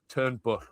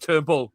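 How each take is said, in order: First: The name ends with a Welsh double-L hiss. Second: The name ends with an ordinary English L sound. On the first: The speaker calls it right. "the proper double L pronunciation" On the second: The speaker calls it wrong. "catch myself every time going Turnbull"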